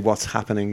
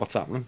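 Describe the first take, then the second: First: The h in happening is pronounced. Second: The h in happening is dropped. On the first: "I pronounce my H's" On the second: "rather than"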